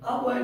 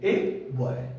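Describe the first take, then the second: First: The article has a short, reduced vowel. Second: The article has a full 'ay' vowel. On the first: This is the casual spoken form. "आ boy नहीं" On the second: This is the careful form used when teaching. "इसको हम ए boy बोल सकते हैं"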